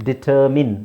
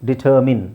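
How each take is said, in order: The two takes are said the same way.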